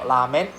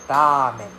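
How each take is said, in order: First: Ramen said as la-men; wrong L sound. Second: Ramen with a tapped R and long A; dragged-out RA. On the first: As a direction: start ramen with an L, short A. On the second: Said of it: "drag out the R sound". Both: Shown as a demonstration.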